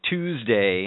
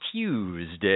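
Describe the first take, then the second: First: It starts with a plain 'too' sound. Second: It starts with a 'tyoo' sound, with a glide. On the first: "instead of saying Tuesday" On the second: "You say Tuesday"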